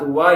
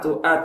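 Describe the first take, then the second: First: A w sound joins the two vowels. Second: A glottal stop separates the two vowels. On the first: The speaker calls it wrong. "துவா இல்ல" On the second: The speaker calls it right. "ஹம்சா தான் நம்ம கன்சிடர் பண்ண"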